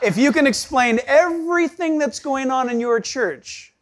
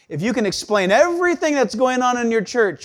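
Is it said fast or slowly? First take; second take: slowly; fast. First: It is said slowly. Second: It is said fast.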